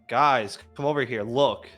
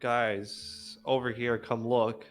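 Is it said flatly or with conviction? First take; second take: with conviction; flatly. First: It is said urgently, with real conviction. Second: It is said flatly, without conviction.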